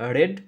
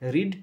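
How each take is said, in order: First: The vowel is short, like in 'red'. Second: The vowel is long, like in 'reed'. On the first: This is the past form. "শুধু V two আর V three এর উচ্চারণ আলাদা" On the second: This is the present form. "রিডের তিনটে ফর্মই এক"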